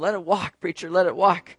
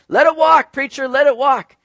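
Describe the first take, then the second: First: It is said with flat, low energy. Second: It is said with lively, enthusiastic energy. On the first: The speakers are reluctant once cost is mentioned. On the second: The speakers eagerly support the idea.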